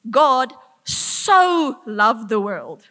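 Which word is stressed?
so. The stress is on 'so'. He loved it to a great extent. "to this extent"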